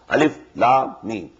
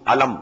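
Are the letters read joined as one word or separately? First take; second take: separately; joined. First: Each letter name is said separately. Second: The letters are joined into one short word. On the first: The speaker calls it right. "These are pronounced separately" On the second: The speaker calls it wrong. "Not pronounced as Alif Lam Mim Alam, no"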